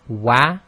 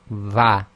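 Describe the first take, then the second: First: The consonant is made with rounded lips. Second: The consonant is made with teeth on lip. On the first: The speaker calls it right. "instead of saying wa" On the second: The speaker calls it wrong. "they say va, and that needs to be corrected"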